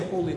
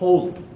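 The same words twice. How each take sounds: First: The word is said at a calm, normal volume. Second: The word is shouted loudly with great force. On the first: "they don't just say" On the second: "they shout"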